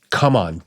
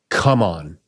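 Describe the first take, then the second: First: It is shouted forcefully, like a demand. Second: The same.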